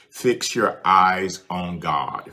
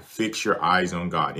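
First: Fix your eyes on God, slow and weighty, every word leaned on; slow, drawn-out charge: fix your eyes on God; slow emphatic. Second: Said in the usual way. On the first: Shown as a demonstration. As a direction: lay each word down slowly, like a command.

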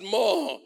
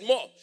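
First: "More" shouted, higher and loud. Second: Said in the usual way. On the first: Shown as a demonstration. Pastor shouting "More" at the congregation. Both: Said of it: "I said More".

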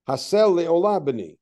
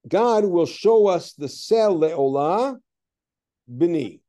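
First: "Haseh le'olah b'ni" run together slowly, the son as the offering; no pause before b'ni. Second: "seh le'olah" then a clear break, "b'ni" set apart as address; pause before b'ni. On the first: Teacher rereading the verse for the class, b'ni joined on. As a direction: read it so b'ni joins le'olah. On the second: Teacher reading the verse to the class, a pause before b'ni. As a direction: read it as talking to the son: pause, then "b'ni". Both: Shown as a demonstration. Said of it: "if you parse it differently".

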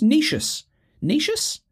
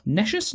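First: "Necius" with a long ee, pitched high; long-e pronunciation. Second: "Nescius" with a short e, as a question; short-e pronunciation. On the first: Quiz player testing how "Necius" sounds, long-ee version. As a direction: say "Necius" as NEE-shus. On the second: Quiz player testing how "Nescius" sounds, short-e version. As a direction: say "Nescius" as NESH-us. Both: Shown as a demonstration. Tries two pronunciations of the word.

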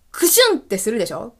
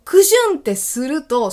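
First: Light sneeze sound. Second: A louder, higher "クシュン" with the weight on "ク"; stronger sneeze sound. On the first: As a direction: say "クシュン" lightly and quickly, like a small sneeze. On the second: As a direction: hit "ク" hard as the sneeze bursts out. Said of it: "その瞬間にね". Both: Shown as a demonstration.

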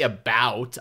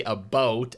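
First: "about" with a wide "ow" as in cow; American about. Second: "a boat", about with an "oh" vowel; Canadian about. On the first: Showing friends their way, about said with wide ow. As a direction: stretch "about" into open "a-BOWT". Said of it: "You guys say about". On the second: Showing friends own way, about pronounced a boat. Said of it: "I say a boat". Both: Shown as a demonstration.

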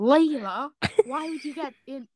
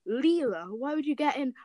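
First: Flat-mouthed male voice; lightly voiced boy character. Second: Character voice. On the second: Acted. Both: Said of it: "To do the voice".

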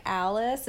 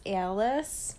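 First: ALICE with a plain short A; "Alice" without any glide in the A; usual pronunciation. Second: ALICE with a tensed A, "EE-AL-iss"; imitated Buffalo accent. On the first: Shown as a demonstration. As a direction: say "Alice" as "AL-iss". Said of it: "So instead of, like, Alice". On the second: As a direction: say "Alice" as slow "AY-uh-liss". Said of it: "A is weird".

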